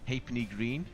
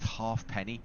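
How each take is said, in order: First: The word is said differently from its spelling. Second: The word is said just as it is spelled. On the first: The speaker calls it right. "it's more pronounced as in halfpenny" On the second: The speaker calls it wrong. "It's actually not pronounced halfpenny"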